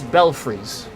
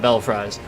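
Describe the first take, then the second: First: The second part does not sound like 'fries'. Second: The second part sounds like the word 'fries'. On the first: The speaker calls it right. "That is Belfries" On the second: The speaker calls it wrong. "you're probably eating too much fast food if you call that Bell Fries"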